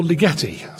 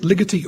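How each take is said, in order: First: Ligeti with the middle syllable stressed, li-GE-ti; stress on second syllable. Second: Ligeti with the first syllable stressed, LI-geti. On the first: Presenter quotes listeners' mistaken option, Ligeti stressed on the second syllable. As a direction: lean on the "ge" in Ligeti. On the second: Presenter quotes listeners' question on the name, Ligeti stressed on the first syllable. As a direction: punch the opening "Li" of Ligeti. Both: Shown as a demonstration. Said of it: "the accent always falls emphatically on the first syllable".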